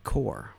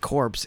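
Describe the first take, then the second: First: The word ends without any 'ps' sound. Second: The word ends with a 'ps' sound. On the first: The speaker calls it right. "It's pronounced like core" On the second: The speaker calls it wrong. "it's not pronounced like corpse"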